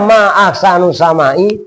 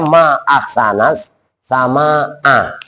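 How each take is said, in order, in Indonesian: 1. Kata-kata itu berakhir dengan vokal u dan i. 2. Kata-kata itu berakhir dengan vokal a dan a. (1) "ini kan bacanya domah. Nunnya. Hamzahnya kas. Kasroh" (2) "Harusnya ini dibaca fatah, ini pun dibaca fatah"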